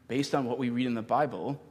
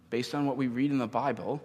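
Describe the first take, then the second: No difference in how they are said.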